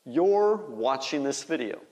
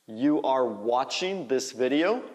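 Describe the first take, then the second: First: "you're" said as one syllable, like "yor"; contracted form. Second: "You are" as two distinct words; full form. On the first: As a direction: blend "you're" together, falling at the end. (forma contraída, "you're" soando como "yor") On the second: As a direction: keep "You are" uncontracted, rising at the end. (forma completa, "You are" em duas palavras) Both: Shown as a demonstration. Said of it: "Faz a contração".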